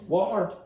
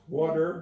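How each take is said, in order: First: It is said in a city Irish accent. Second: It is said in an American accent. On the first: "but they go water" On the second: "that's more of an American pronunciation"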